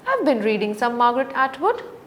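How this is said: The voice rises high at the end of the sentence. The speaker is asking whether the listener knows the author. "with a high rising tone"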